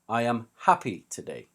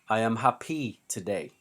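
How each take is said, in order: First: Happy is stressed on its first syllable. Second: Happy is stressed on its last syllable. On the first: The speaker calls it right. "We put the stress on the first syllable" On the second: The speaker calls it wrong. "We do not put the stress at the end of the word"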